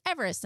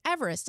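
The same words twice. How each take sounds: First: Said in the usual way. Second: Son's echo. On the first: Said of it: "and I was like". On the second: Retold or imitated. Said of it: "So he was like".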